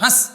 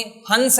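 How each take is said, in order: First: हंस as a short "hãs", no separate n; quick, short vowel. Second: हंस with a distinct "n" before the s: "hans"; full nasal n. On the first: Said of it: "जल्दी से बोलेंगे". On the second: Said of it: "हंस नहीं बोलेंगे". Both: Shown as a demonstration.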